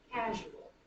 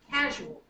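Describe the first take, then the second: First: "Casual" said evenly, light stress on CA; CA-su-al, easing off after the first syllable. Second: "Casual" with CA punched, then dropping off; first-syllable stress. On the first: Teacher repeating the dactyl, understated stress. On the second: Teacher offering a dactyl, emphatic stress. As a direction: hit CA in CA-su-al firmly. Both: Shown as a demonstration. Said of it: "First one is stressed".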